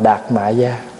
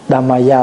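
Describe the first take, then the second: First: The first syllable ends in a t sound. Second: The first syllable ends in an m sound. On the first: This is the local Vietnamese reading. "mình âm là" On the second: This is the original Sanskrit form. "là tiếng Phạn"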